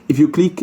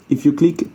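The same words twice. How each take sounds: The two takes are said the same way.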